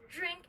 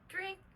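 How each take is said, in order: First: It starts with a j-like sound. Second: It starts with a plain d sound. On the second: "D plus R"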